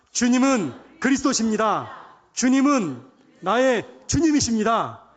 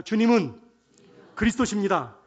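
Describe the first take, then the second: First: Loud, drawn-out declaration; twice as loud. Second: Said in the usual way. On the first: Shown as a demonstration. Preacher leading the congregation to confess louder, loud slow declaration. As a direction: declare it slowly at full voice. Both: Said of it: "두 배로 크게 시작".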